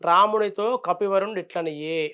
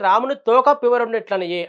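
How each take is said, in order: First: The break falls after 'Ramunitho'. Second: The break falls after 'Ramuni'. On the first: The monkey chief spoke to Rama. The speaker calls it right. "రామునితో అక్కడ space ఇచ్చి" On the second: Rama's tail spoke. The speaker calls it wrong. "సరిగ్గా చదవక"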